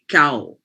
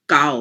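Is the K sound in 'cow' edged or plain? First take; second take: edged; plain. First: The K sound has a slight edge. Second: The K sound is plain and straight. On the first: The speaker calls it right. "There's a bit of an edge to it" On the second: The speaker calls it wrong. "You don't have a very straight up K"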